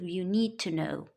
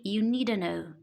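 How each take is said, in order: First: 'Need to' is said as two full words. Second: 'Need to' is reduced and run together. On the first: "instead of"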